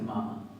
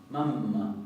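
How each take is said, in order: First: The middle m sound is short and light. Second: The middle m sound is long and emphatic. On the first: The speaker calls it wrong. "no van a decir mamá" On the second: The speaker calls it right. "La doble M se va a pronunciar también como una doble M, muy enfática"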